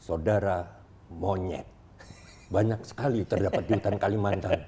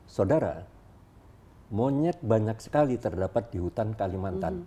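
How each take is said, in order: First: There is no pause right after 'saudara'. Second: There is a pause right after 'saudara'. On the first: The listener is being called a monkey. The speaker calls it wrong. "Atau dihilangkan ya" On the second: Monkeys are plentiful in the Kalimantan forest. The speaker calls it right. "Setelah saudara diberi jeda"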